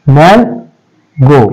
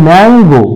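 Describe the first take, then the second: First: mango split into man, pause, গো; syllable by syllable. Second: Said in the usual way. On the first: Shown as a demonstration. Teacher counting syllables for students, mango broken in two. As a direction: say mango very slowly in two separate beats. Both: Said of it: "আমরা এখানে কবার উচ্চারণ করছি".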